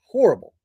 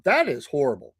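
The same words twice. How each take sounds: First: Horrible said higher and louder with a strong fall; emphatic horrible. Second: Said in the usual way. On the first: Real, not acted. Reacting to the band's scandal, hits Horrible hard. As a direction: repeat Horrible with heavy emphasis.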